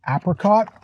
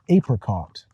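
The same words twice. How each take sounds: First: It is said in a Canadian-style pronunciation. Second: It is said in a southern US pronunciation. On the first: "I say it like Bob the Canadian" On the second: "if you go to the southern part of the United States, you might hear"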